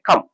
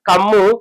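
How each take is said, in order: First: The word ends cleanly on the final consonant. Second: An extra vowel is added after the final consonant. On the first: The speaker calls it right. "Pronunciation ఎలా చేయాలంటే" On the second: The speaker calls it wrong. "దీర్ఘాలను English పదాలకు కలపకూడదు"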